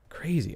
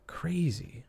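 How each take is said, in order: First: Said in the usual way. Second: "Crazy" breathed out higher, softer; a stunned whisper to yourself. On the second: Real, not acted. Stunned by the evidence.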